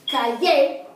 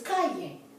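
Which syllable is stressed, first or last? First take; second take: last; first. First: The stress is on the last syllable. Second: The stress is on the first syllable. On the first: The speaker calls it wrong. "so it's not calle" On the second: The speaker calls it right. "it's calle"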